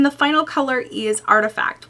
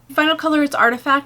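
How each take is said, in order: First: The voice is low and creaky. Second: The voice is clear without creak.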